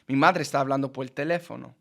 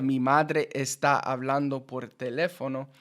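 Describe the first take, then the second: First: Neighbouring vowels merge, running the words together. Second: Each word is pronounced separately and fully.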